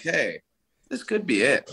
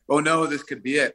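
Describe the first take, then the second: First: It sounds upbeat and positive. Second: It sounds worried and fearful.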